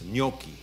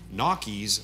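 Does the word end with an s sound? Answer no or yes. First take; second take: no; yes. First: The word ends on a vowel, no s. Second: The word ends with an added s sound. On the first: This is the Italian form. The speaker calls it right. "but it's gnocchi" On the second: This is how Americans say it. The speaker calls it wrong. "as Americans would say"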